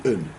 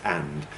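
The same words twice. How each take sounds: First: And reduced to a bare "un"; weak form. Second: And in full, with a clear "a" and final d; strong form. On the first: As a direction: swallow and down to "un", no d. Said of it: "It's usually". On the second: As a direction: say the full, unreduced word and. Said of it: "hardly ever pronounce it as". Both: Shown as a demonstration.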